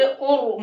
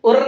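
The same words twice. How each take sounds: First: "और" as a full, rounded "or"; heavy Ra. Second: First "और" as "urr", light trilled R; thin Ra. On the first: Teacher modelling the correct reading, heavy Ra. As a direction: thicken the R of "और". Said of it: "मोटा करके पढ़ेंगे". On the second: Teacher showing what not to read, thin Ra. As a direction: roll a thin R in "और". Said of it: "और नहीं पढ़ेंगे". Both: Shown as a demonstration.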